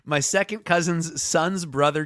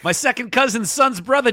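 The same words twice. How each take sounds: First: It is read in the speaker's ordinary accent. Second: It is read in a put-on Boston accent.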